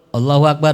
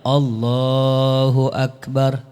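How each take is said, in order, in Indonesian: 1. Frasa itu diucapkan pendek, tanpa dipanjangkan. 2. Frasa itu dipanjangkan dan dibuat lebih panjang. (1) "bukan begitu" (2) "tapi panjang"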